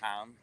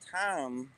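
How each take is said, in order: First: It is said with a standard low rising tone. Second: It is said with the Luang Prabang tone. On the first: "low rising tone" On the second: "in Wington accent, Tom becomes"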